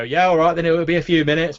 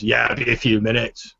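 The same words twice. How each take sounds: First: Higher, raised cook's voice; grudging back-room cook. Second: Orc barkeep to customer. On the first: Half-elf cook giving in from the back room, grudging and high. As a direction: answer grudgingly in a raised pitch. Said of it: "you hear this voice go". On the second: Orc barkeep turning back to the customer, casual. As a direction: back to conversational pitch. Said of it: "turns back to you and Orky says". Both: Acted.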